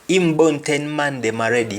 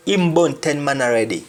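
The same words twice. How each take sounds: First: The wrong form "Him born ten man dem already", said as an error; wrong patois. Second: "Him born ten man already", the right Jamaican form; correct patois. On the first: Teacher showing students the wrong patois form. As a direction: show the mistake with the extra "dem". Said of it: "we don't say". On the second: Teacher modelling the correct patois sentence. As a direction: say it the proper Jamaican way. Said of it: "He has killed ten men already". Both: Shown as a demonstration.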